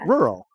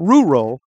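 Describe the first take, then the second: First: The word sounds like it rhymes with curl. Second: The word does not rhyme with curl. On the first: The speaker calls it right. "like it rhymes with curl" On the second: The speaker calls it wrong. "Not rural"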